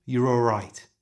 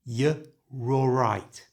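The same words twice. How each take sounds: First: "you're all right" fast, all in one breath; full speed. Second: "y, raw right" said slowly, r carried forward; slow pronunciation. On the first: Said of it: "And now at full speed". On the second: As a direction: stretch "y, raw right" out syllable by syllable. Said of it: "First slowly". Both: Shown as a demonstration.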